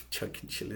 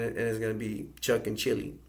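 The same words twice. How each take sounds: First: "Chuck and Chili" breathed through a soft laugh, much softer; amused, laughing over the names. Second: Said in the usual way. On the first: Real, not acted. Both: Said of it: "that sounds funny".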